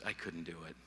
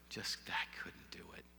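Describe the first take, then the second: First: Said in the usual way. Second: Whispered, barely holding back grief; broken whisper. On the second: Retold or imitated. Retelling his grief, whispering that he couldn't go on. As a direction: let it fall to a breath, overwhelmed. Breaking down at the reception.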